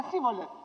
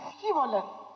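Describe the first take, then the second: First: «Σίβολεθ» with a plain s, the sch sound dropped; wrong Shibboleth. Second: «Σχίβολεθ» with a clear rough sch sound at the start; correct Shibboleth. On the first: Retold or imitated. Preacher imitating the failed «Σίβολεθ» of the Ephraimites. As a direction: say «Σίβολεθ» the way the heavy-accented men got it wrong. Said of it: "είχανε βαριά προφορά". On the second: Shown as a demonstration. Preacher showing the right way to say «Σχίβολεθ». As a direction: say «Σχίβολεθ» properly, the sch rasped before the i. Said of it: "τους έλεγανε να πείτε τη λέξη".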